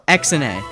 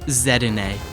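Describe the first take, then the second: First: The first letter is said as "ex". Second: The first letter is said as "zee". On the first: "X and A doesn't sound right" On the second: "I just pronounce the X like a Z"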